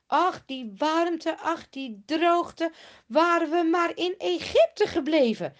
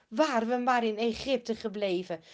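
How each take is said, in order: First: Higher, louder, slow whiny moaning; grumbling complaint. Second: Said in the usual way. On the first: Acted. Israelites grumbling to Mozes, slow and whiny. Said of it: "Ze beginnen ook lelijk te mopperen". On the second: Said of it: "Wie zegt dat nou?".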